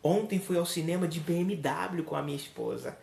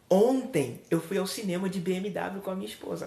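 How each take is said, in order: First: The word BMW carries the emphasis. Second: The word ontem carries the emphasis. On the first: The means of transport is the main message. "Observe que eu dei ênfase ao transporte" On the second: The day is the main message. "Observe que eu dei ênfase no ontem"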